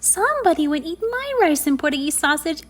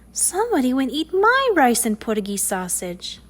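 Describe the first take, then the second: First: It is said in a high, squeaky voice. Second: It is said in a soft, sweet voice.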